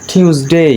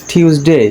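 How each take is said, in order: The two takes are said the same way.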